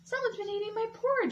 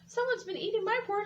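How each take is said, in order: First: A soft, low exclaiming voice. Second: A small, teeny tiny crying voice.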